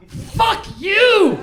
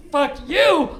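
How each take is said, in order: First: High, loud mock yell of a stranger; retold yell. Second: Loud mock shout; retold yell. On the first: The man outside the store, now clearly heard, yelling loud and high. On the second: The stranger on the street, quoted, shouting it loud. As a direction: throw it at him like the stranger did. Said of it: "And so when he says".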